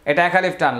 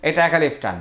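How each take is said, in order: Both takes have the same delivery.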